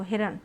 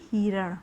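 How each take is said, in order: First: हिरण with a quick short hi; short i pronunciation. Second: हिरण said as हीरण, first vowel long; long ii pronunciation. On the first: Teacher models correct word for children, quick short hi. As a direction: clip the first vowel of हिरण short. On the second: Teacher models wrong word for children, first vowel long. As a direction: stretch the hi in हिरण into a long hee. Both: Shown as a demonstration. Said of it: "ना कि हिरण".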